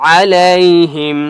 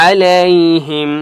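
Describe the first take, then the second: The two takes are said the same way.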